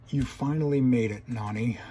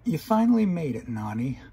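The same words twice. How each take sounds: First: It is read in the reader's plain voice. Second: It is read in a put-on character voice.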